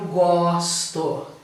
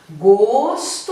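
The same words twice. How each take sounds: First: The stressed O vowel is open. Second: The stressed O vowel is closed. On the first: It is the verb meaning I like. "esse com som aberto" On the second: It is the noun meaning taste. "Esse com som fechado"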